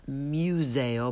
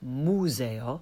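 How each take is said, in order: First: The u is said with a y glide. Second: The u is a pure vowel with no glide. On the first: The speaker calls it wrong. "Not museo" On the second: The speaker calls it right. "but museo. No y or y consonant sound there"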